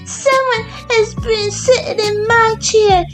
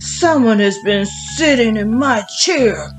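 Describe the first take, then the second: First: It is said in a small, high voice. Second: It is said in a big, deep voice. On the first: "cried in his little wee voice" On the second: "in his great big voice"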